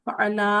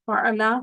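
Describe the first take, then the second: The two takes are said the same way.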